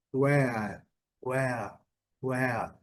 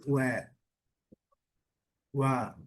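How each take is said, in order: First: "where" with a long drawn vowel. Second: "where" with a short weak vowel. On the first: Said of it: "a pronúncia mais longa". ("where" com som longo) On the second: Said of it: "esse é bem curtinho e mais fraco". ("where" curtinho e mais fraco) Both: Shown as a demonstration.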